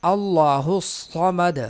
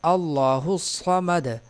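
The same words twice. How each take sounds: The two takes are said the same way.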